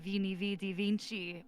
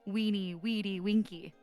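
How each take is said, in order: First: Each word begins with a V sound. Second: Each word begins with a W sound. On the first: This is the commonly known pronunciation. "what you would normally know as" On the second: This is the classical Latin pronunciation. "would pronounce like classical Latin"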